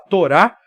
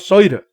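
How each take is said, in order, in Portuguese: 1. A palavra começa com som de T. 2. A palavra começa com som de S. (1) "em vez de falar Torá" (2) "o Yiddish pronuncia o T hebraico, o Tav, como S"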